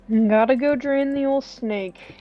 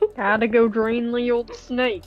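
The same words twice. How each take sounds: First: It is read in the speaker's plain accent. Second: It is read in an exaggerated Southern accent.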